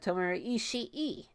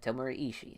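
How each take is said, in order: First: Ishii ends with an extra, lengthened vowel. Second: Ishii ends with a short, clipped vowel. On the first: The speaker calls it right. "as that is the correct pronunciation now" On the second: The speaker calls it wrong. "I always say his name like that"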